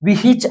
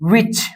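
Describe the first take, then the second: First: An h sound with an extra vowel is heard. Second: The h is silent, with no extra vowel. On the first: The speaker calls it wrong. "ವಿಹಿಚ್ ಅನ್ನೋದಿಲ್ಲ" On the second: The speaker calls it right. "ನಾವು pronounce ಮಾಡುವಾಗ ವಿಚ್ ಅಂತೀವಿ"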